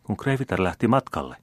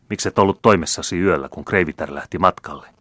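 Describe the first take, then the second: First: Higher-pitched, puzzled echo question; very astonished. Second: Louder, mildly snappish reproach. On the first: Valet echoing the count's question, very astonished. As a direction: repeat it back in astonishment. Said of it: "kysyi palvelija hyvin hämmästyen". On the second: Count rebuking his father's valet on the stairs, snappish. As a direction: take the servant to task, testily. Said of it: "lausui tiuskaisevalla äänellä". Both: A narrator's reading.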